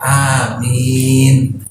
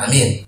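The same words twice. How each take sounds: First: It is said seriously and sincerely. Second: It is said carelessly and mockingly.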